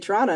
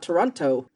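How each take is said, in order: First: It is reduced locally, like Trana. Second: It is said fully, with clear T sounds.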